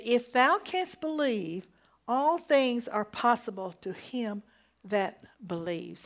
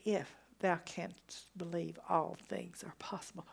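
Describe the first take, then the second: First: Forceful quote. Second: Hushed, much softer retelling of the verse; soft repeat. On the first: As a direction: declare it boldly from the pulpit. Preacher quoting Jesus with force. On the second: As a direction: let it drop to a near hush. Same verse repeated softly. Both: Acted.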